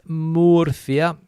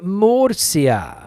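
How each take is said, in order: First: The middle consonant is not an s sound. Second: The middle consonant is an s sound. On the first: "here in Spain, mainland Spain anyway, it's Murcia" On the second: "We Latinos say Murcia"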